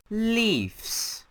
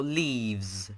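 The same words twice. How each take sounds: First: "Leaves" said high with an f, like "leefs"; alternative pronunciation. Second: Said in the usual way. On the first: Shown as a demonstration. Host unsure how to pronounce it, "Leaves" called out as "leefs". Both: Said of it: "However you pronounce it".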